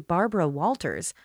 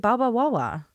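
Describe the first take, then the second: First: The R sounds are pronounced clearly. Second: The R sounds are dropped or turned into W.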